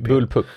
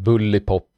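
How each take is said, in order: First: The word is said as bullpup. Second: The word is said as bullipop. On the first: The speaker calls it right. "just det" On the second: The speaker calls it wrong. "Det var det som jag aldrig kunde uttala när jag var liten"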